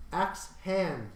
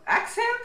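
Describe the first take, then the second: First: Firmly correcting the name to Axe HAND; corrective stress. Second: Axe HAND? rising very high in disbelief; checking the name, Axe HAND? with a steep rising tune; incredulous question. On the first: Shown as a demonstration. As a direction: stress on HAND, firm and falling. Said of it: "Did you just call someone Axe Head?". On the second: Real, not acted. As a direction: ask it back in amused disbelief. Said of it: "that's still pretty similar".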